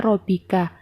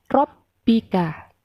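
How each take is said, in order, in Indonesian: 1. Bunyi b pendek dan tunggal. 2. Bunyi b digandakan dan ditekan. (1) "Bukan dibaca" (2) "tetapi dibaca"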